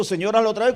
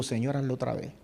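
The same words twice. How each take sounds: First: Said in the usual way. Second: Low, soft private plea; quiet prayer. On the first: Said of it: "Y yo sé de lo que yo estoy diciendo". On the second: Retold or imitated. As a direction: murmur it like a prayer in the car. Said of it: "y digo".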